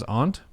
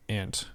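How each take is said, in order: First: "aunt" with broad "ah", like "ont"; reading pronunciation. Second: "aunt" with short flat "a", as "ant"; sounds like ant. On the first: How the word gets read off a page, "aunt" as AHNT. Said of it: "sometimes I'll read it as aunt". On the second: Thinking about my own aunts, "aunt" as "ant". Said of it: "It sounds like aunt". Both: Shown as a demonstration.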